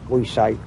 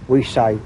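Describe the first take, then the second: The two takes are said the same way.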